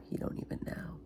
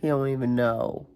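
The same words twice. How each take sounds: First: Hushed, voiceless aside; whisper. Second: Said in the usual way. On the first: Real, not acted. Mother's aside about Lincoln's answer, whispered.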